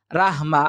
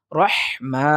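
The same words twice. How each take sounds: First: "রাহমা" with thin "raa" and light h; wrong pronunciation. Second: "রহমা" slow, heavy "ro", strong breathed h; correct tajweed. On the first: Teacher showing what we won't say, incorrect light pronunciation. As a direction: say "রাহমা" short and light, as "raahma". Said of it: "বলবো না আমরা". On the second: Teacher showing what we will say, careful tajweed. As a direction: stretch "রহমা" as "rohh-maa". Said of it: "আমরা বলবো". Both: Shown as a demonstration.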